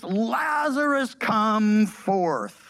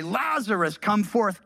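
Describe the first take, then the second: First: Mild calling-out, raised and drawn out; restrained preacher's rendering of a commanding cry; loud cry. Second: Said in the usual way. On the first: A narrator's reading. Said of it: "cried out with a loud voice".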